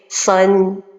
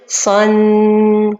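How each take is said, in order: First: The final nasal sound is held briefly. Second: The final nasal sound is held too long. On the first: The speaker calls it right. "Or que la prononciation correcte, c'est son" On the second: The speaker calls it wrong. "L'erreur, c'est de dire son. on a rajouté beaucoup de temps"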